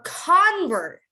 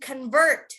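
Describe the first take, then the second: First: The stress is on the first syllable. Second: The stress is on the second syllable. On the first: It is used as a noun. "you want to emphasize the beginning. A convert" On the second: It is used as a verb. "if it's a verb, you would say to convert"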